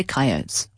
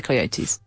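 First: Coyotes said as KYE-oh-tes, two syllables, long i first; coyotes: "kye-OH-ts", dropping the final e sound; Canadian coyotes. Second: Coyotes said as coy-OH-tees, three syllables, ending in "tees"; coyotes: "koy-oh-teez", full final syllable; British coyotes. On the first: Canadians naming the animal, coyotes said KYE-oh-tes. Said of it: "They say coyotes". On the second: The speaker's own way, coyotes said koy-oh-teez. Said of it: "We say coyotes". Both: Shown as a demonstration.

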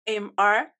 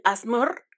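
First: A S M R, each letter named separately in Spanish; spelled letter by letter. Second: Asmr said as one word, "asmur"; read as one word. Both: Shown as a demonstration. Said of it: "así se leería".

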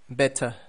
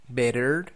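First: "better" the British way, crisp T, silent final R, falling; British demo of "better" with a closing fall; British accent. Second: "better" the American way, T tapped, final R sounded, rising; American demo of "better", tune left open; American accent. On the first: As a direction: model British "better", ending in an open uh. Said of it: "it sounds just like a T". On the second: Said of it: "T's in the middle of words sound like R". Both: Shown as a demonstration.

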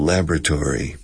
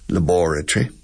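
First: "laboratory" as LAB-ra-tory, stress on the first syllable; American laboratory. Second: "Laboratory" as la-BOR-a-try, stress on the second syllable; British laboratory. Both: Shown as a demonstration. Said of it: "For example".

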